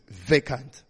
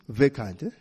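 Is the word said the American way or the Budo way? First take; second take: American; Budo. First: It is said in the American way. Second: It is said in the Budo school way. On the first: "I'll go with the Americans" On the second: "In Budo"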